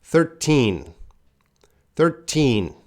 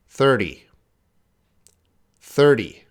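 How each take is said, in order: First: Put-on "Thirteen" with a strong, clear, held "teen"; stress on teen. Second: "Thirty" with the stress on "thir" and a short, light T; short final T. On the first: Teacher drilling the class on the teen ending. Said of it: "I'm focusing on teen". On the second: Teacher contrasting thirty with thirteen for the class. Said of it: "I'm focusing on teen, T". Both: Shown as a demonstration.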